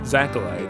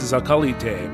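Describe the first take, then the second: First: The name is said with English pronunciation. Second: The name is said with Japanese pronunciation. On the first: "the English versions pronounce it" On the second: "in Japanese it's pronounced"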